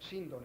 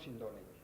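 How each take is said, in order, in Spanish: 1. El acento está en la primera sílaba. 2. El acento está en la segunda sílaba. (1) "la fonética, según Antonio Rivera, eh, veraz, eh, correcta de la palabra es Síndone" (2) "no Sindone"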